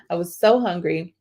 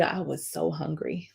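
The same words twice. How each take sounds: First: Said in the usual way. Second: I was so hungry said softly, almost to herself; dropped low. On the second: Shown as a demonstration. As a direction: sink the voice on so hungry. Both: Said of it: "And when I tell you".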